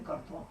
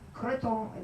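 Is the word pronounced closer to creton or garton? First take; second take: garton; creton. First: The word begins with a gar sound. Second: The word begins with a kr sound. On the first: This is a later local form of the word. "it kind of got corrupted into garton" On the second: This is the original form of the word. "that's what they call it in Quebec"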